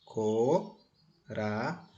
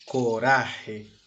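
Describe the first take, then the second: First: "Coraje" split into co, ra, je; syllable by syllable. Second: Said in the usual way. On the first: Shown as a demonstration. Teacher separating the syllables, "Coraje" said in three pieces. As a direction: pause after each syllable of "Coraje". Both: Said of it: "Vamos separar as sílabas?".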